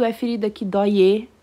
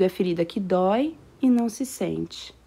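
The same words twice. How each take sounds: First: "é ferida que dói e" run together fast with no break. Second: "é ferida que dói e não se sente" with a clear pause after "dói". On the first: Teacher showing the wrong way, words run together. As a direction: rush "dói e" into one syllable. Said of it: "tudo junto". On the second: Teacher showing the right way, pause after dói. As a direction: keep "dói" and "e" apart with a short pause. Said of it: "eu tenho uma pausa aqui". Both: Shown as a demonstration.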